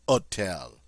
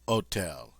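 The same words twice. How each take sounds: First: The word begins directly with the vowel. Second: The same.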